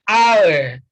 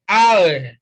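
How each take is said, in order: No difference in how they are said.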